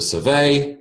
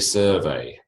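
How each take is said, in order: First: The stress is on the second syllable. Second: The stress is on the first syllable. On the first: It is a verb. "to survey" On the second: It is a noun. "a survey"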